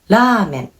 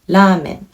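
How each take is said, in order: First: It is said with a Japanese r sound. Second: The same.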